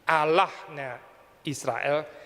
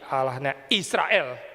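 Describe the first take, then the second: First: The stress is on Allahnya. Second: The stress is on Israel.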